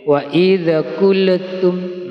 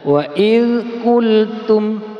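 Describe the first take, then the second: First: Extra vowel sounds follow the silent consonants. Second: The silent consonants end cleanly without added vowels. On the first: The speaker calls it wrong. "nah itu namanya tawallud, menambah bunyi e pada huruf yang disukun" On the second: The speaker calls it right. "Jadi yang betul adalah"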